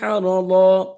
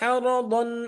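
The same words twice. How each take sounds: First: The word ends in a drawn-out long 'aa'. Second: The word ends in a short 'an'. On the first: The reciter stops on this word. "প্রথমবার পড়েছি হারাদ" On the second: The reciter joins this word to the next one. "দ্বিতীয়বার বলছি হারাদন, দ্বিতীয়বার কিন্তু মাদ করিনি"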